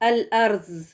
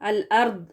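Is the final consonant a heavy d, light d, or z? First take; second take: z; light d. First: The final consonant is a z sound. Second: The final consonant is a light, plain d sound. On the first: "जेड की आवाज के साथ, जो कि गलत है" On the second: "दाल के साथ"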